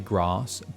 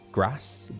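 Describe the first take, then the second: First: Said in a southern English accent. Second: Said in a northern English accent. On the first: "in the south they say" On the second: "in the north they say"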